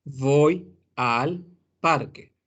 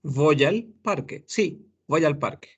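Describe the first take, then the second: First: "Voy al parque" very slow, each word set apart. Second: "voy al parque" fused into "voyalparque"; linked speech. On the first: Teacher showing the written form, unlinked. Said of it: "Se escribe". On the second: Teacher contrasting spoken with written form. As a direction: say it the way people really talk. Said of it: "fonéticamente decimos". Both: Shown as a demonstration.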